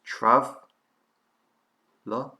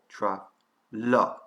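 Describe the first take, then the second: First: The stress is on the first syllable. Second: The stress is on the second syllable.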